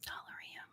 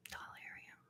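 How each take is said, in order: First: "Dollarium" very softly whispered, with "er" in the middle; whispered first pronunciation. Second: "Dollarium" very softly whispered, with "AIR" in the middle; whispered alternative pronunciation. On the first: Vlogger testing the name to herself, whispered "Dollarium" with "er". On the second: Vlogger testing the name to herself, whispered "Dollarium" with "AIR". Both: Shown as a demonstration. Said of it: "what syllable would you put the accent on".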